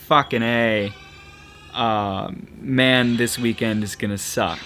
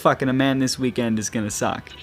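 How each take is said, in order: First: There are pauses around the word man. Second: It runs on without any pause before man. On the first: An exclamation, then a complaint about the weekend. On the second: Someone is having sex with a man this weekend.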